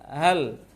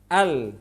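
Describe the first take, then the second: First: The word starts with a breathy puff of air. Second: The word starts cleanly with no escaping air. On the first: The speaker calls it wrong. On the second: The speaker calls it right.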